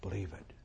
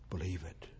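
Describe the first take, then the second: First: Breathy hushed whisper. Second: Soft, low-voiced plea; quiet urging. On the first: Preacher pressing the message home, whispered. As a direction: whisper it like a secret. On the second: Preacher urging his flock to believe, softly. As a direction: draw the listener in gently. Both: Shown as a demonstration.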